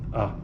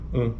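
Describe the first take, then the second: First: The vowel is said without nasal sound. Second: The vowel is said through the nose. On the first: "a vogal oral seria" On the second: "E a vogal nasal"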